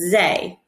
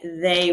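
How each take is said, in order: First: The word begins with a z sound. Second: The word begins with a th sound. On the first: The speaker calls it wrong. "you may pronounce it zay with a Z" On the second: The speaker calls it right. "pronouncing it they with the T H"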